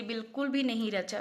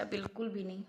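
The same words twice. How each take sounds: First: Said in the usual way. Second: Dejected echo. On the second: Real, not acted. Disappointed wife sighing to viewers over mehndi, soft dejected echo. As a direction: repeat it much softer, trailing off in letdown.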